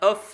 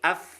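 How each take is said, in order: First: The vowel is not a full open a. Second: The vowel is a full open a. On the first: The speaker calls it wrong. "jangan of" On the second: The speaker calls it right. "tapi af idah"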